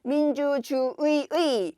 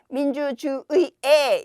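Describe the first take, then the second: First: The final particle is pronounced 'ui'. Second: The final particle is pronounced 'e'. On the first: "의도 되고" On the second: "에도 되니까"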